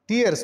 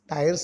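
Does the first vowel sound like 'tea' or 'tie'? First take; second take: tea; tie. First: The first vowel sounds like 'tea'. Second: The first vowel sounds like 'tie'. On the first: The speaker calls it right. "टियर्स म्हणायला पाहिजे" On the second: The speaker calls it wrong. "तसा उच्चार टायर नाही"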